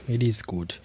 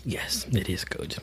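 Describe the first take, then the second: First: Said in the usual way. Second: Hushed whisper. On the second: Real, not acted. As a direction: breathe it out, voiceless. Whispered reply, then repeated.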